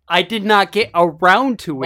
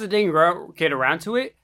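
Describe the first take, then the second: First: Each word is carefully and clearly enunciated. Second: The words are slurred and run together. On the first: The speaker calls it right. "If you're going to make me enunciate everything" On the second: The speaker calls it wrong. "I slur my words sometimes"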